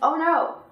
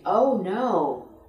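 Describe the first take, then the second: First: The words are short, clipped and choppy. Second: The words are smooth, linked and lengthened. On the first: The speaker calls it wrong. "We don't say" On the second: The speaker calls it right. "we constantly have the tendency to smooth things out and lengthen them"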